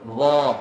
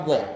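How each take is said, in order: First: The vowel sounds open, with the mouth wide. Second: The vowel sounds rounded, with pouted lips. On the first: The speaker calls it right. "Dia kena buka mulut" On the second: The speaker calls it wrong. "sebutan dia bukan Dha"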